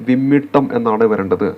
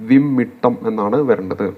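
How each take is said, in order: The two takes are said the same way.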